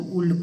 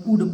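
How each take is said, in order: First: "उल्ड" with the L sounded; wrong "would". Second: "वुड" with silent L; correct "would". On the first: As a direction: say "उल्ड", pronouncing the silent L. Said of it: "ना तो उल्ड पढ़ेंगे". ("उल्ड" में ल का ग़लत उच्चारण) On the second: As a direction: say "वुड" without any L. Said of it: "एल का उच्चारण इसमें नहीं होगा". ("वुड" में ल silent) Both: Shown as a demonstration.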